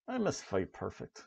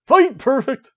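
First: Said in the usual way. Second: Loud, high arcade announcer shout; booming fighting game announcer. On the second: Acted. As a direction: call the win like an arcade announcer.

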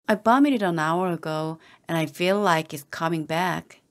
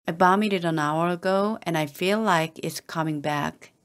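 The two takes are said the same way.

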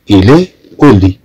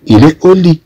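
First: Il est au lit spaced out very slowly, each sound apart; slow right down and spell out il est au lit for students to copy; very slow repeat of il est au lit. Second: Il est au lit called out high, falling on au; high first read of il est au lit; model French phrase. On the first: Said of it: "إذا هو في السرير". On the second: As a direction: pitch il est au lit up high and bright for the class. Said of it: "إذا مادام أنه مريض". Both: Shown as a demonstration.

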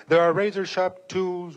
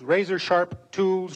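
First: Said in the usual way. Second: Razor-sharp tools drawn out slowly; slow savoring repeat. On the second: A narrator's reading. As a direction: linger on the words like eyeing the blades. Repeated phrase in narration.

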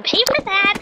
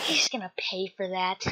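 First: High, fast squeal of revenge; rising, worked-up threat; vengeful outburst. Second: Low-key, softer threat of payback; understated vengeful aside; muttered vow. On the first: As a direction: vow payback in a high-pitched fury. Vows revenge, escalated take. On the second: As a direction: grumble revenge under your breath. Vows revenge, first take. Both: Acted.

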